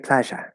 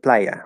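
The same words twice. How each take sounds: First: It is said in an Argentine Spanish accent. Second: It is said in a non-Argentine Spanish accent. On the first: "If you grew up in Argentina, you would have learned how to say playa" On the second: "instead of playa"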